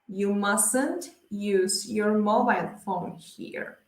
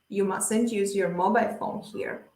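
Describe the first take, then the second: First: It is spoken slowly and carefully. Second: It is spoken quickly and fluently.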